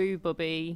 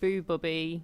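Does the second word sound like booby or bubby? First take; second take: bubby; bubby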